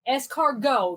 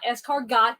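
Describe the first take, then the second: First: The final T is silent. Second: The final T is sounded. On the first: The speaker calls it right. "The T is silent" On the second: The speaker calls it wrong. "not escargot"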